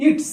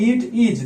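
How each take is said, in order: First: "it's" in a single syllable; one-word contraction. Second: "it is" as two distinct words; two separate words. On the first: Teacher showing one pronunciation instead of two, "it's" as one word. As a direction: run it and is together as "it's". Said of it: "দুবার উচ্চারণ না করে একবারে বলবো". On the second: Teacher showing subject and verb apart, "it is" as two words. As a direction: give "it" and "is" a beat each. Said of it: "দুটো উচ্চারণ করছি দুবার". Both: Shown as a demonstration.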